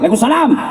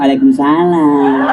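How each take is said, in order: First: It is said in a firm, curt voice. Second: It is said in a soft, languid, swooning voice.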